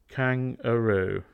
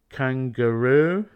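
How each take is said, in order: First: No hard g follows the ng sound. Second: A hard g follows the ng sound. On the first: The speaker calls it wrong. "not kangaroo" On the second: The speaker calls it right. "we add G after ng"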